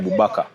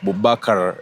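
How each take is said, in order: First: The final R is left out. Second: The final R is clearly sounded. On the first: The speaker calls it wrong. "You don't say Bubakar" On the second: The speaker calls it right. "you have to mention that R"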